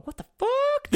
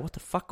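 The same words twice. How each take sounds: First: Squeaked very high in a put-on voice; shocked squeal. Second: Said in the usual way. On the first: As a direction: squeal it in mock disbelief. Team stunned he plays every match.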